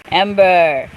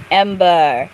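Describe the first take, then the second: No difference in how they are said.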